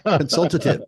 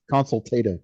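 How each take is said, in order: First: Consultative stressed on the second syllable, con-SUL-ta-tive; corrected stress. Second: Consultative stressed on the third syllable, con-sul-TAY-tive; wrong stress. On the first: Shown as a demonstration. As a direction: correct them: Consultative, weight on SUL, firm and a bit louder. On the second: Real, not acted. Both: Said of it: "You have the emphasis on the wrong syllable".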